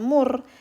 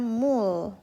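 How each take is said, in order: First: The word ends with an R sound. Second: The word ends with an L sound. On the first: The speaker calls it wrong. "ini dibacanya bukan mur" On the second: The speaker calls it right. "tapi dibacanya mul"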